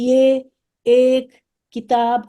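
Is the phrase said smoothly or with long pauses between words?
long pauses. Long pauses separate each of the words. The speaker calls it wrong. "मैं तो बहुत बड़ा बड़ा पॉज दे रही हूँ"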